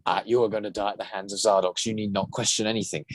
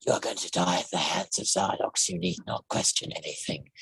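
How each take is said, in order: First: Said in the usual way. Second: Low, soft, menacing alien; menacing monster voice. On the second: Shown as a demonstration. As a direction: purr the threat like a villain with personality. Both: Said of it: "that in the other voice is".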